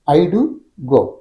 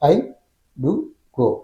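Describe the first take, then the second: First: There is one pause, after "do". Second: There are pauses after "I" and "do".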